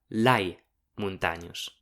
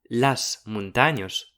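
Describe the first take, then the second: First: The article ends with an i sound. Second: The article ends with an s sound. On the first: "ma lai montanyos" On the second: "disum pas las montanyos"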